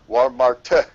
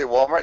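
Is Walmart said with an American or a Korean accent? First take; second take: Korean; American. First: It is said with a Korean accent. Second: It is said with an American English accent. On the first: This is how a local driver in Korea says it. "the taxi car driver would, would say uh, Walmart" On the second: This is how native English speakers say it. "we would say Walmart"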